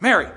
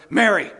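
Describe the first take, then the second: First: Said in the usual way. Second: Loud sharp "Mary"; loud vocative call; calling her name. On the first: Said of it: "I don't think it was Mary". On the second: Shown as a demonstration. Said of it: "That's the way I think he said it".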